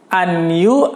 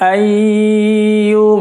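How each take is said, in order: First: A clear n sound is said before 'yu'. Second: A long nasal hum is held before 'yu'. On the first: The speaker calls it wrong. "bukan anyu" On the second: The speaker calls it right. "ditahan empat ketukan, didengung"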